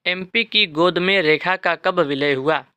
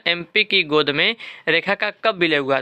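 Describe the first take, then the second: First: Slow, spelled-out memory rhyme; slow mnemonic recital. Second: Said in the usual way. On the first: Shown as a demonstration. Teacher slowly dictating the river mnemonic to students. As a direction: lay out each word of the trick slowly. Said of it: "नदियों का trick है". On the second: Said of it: "ठीक है ना".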